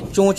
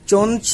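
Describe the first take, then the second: First: The vowel is nasalized without a full n. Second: A full n consonant is pronounced. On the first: The speaker calls it right. "इसे चोंच बोलते हैं" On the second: The speaker calls it wrong. "चोंच ना बोलकर"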